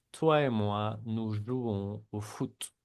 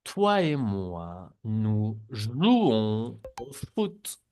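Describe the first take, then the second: First: Said in the usual way. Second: Slow, careful, nous jouons au foot drawn out; slow model sentence. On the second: Shown as a demonstration. Teacher reads slowly for students to repeat. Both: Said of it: "repiten las frases también".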